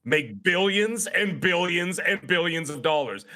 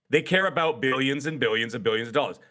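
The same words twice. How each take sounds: First: "billions and billions and billions" drawn out slowly, each "billions" leaned on; slow emphatic. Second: Said in the usual way. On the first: Shown as a demonstration. Streamer hammers the profit point, each "billions" stretched slowly.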